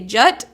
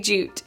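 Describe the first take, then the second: First: The vowel sounds short, like in 'cut'. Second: The vowel sounds long, like in 'boot'. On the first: "Do you say jut" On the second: "or do you say jute?"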